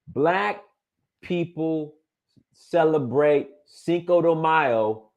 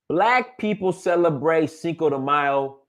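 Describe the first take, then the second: First: It is spoken at a slower, deliberate pace. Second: It is spoken at a normal, quicker pace.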